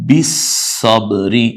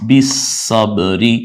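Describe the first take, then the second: The two takes are said the same way.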